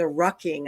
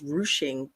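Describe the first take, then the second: First: The middle consonant is a k sound. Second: The middle consonant is an sh sound. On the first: The speaker calls it wrong. "I'm saying it wrong" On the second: The speaker calls it right. "I guess it's pronounced ruching"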